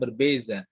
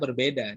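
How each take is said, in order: First: It is said the Malaysian way, with z. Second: It is said the Indonesian way, with d. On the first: "bahasa sana berbeza" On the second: "kalau kita berbeda"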